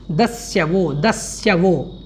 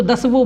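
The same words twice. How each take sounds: First: "दस्यवो" slow and clear with the y sounded; correct pronunciation. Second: "दसवो" with the y dropped, the mistaken way; mispronounced "दसवो", as some people say it; wrong pronunciation. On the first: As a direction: model "दस्यवो" carefully, das-ya-vo. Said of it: "इस प्रकार से". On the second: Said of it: "कुछ लोग इसको ... बोल देते हैं". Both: Shown as a demonstration.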